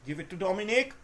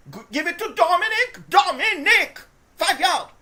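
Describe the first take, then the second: First: Said in the usual way. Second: Higher, louder, urging Dominic on; cheering shout for Dominic; excited shouting. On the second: Real, not acted. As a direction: yell at the screen for the run. Yelling at the running back.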